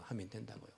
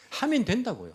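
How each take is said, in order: First: 하면 된다고요 repeated much softer and lower; quiet echo. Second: 하면 된다고요 said higher, stressing 하면 with a falling close; emphatic declaration. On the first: Preacher echoes 하면 된다고요 to himself, hushed. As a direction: let 하면 된다고요 fall away to a near-murmur. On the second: Preacher insists to the church: 하면 된다고요, emphatic. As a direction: proclaim 하면 된다고요 firmly to the congregation. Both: Real, not acted. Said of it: "preacher repeats the phrase twice".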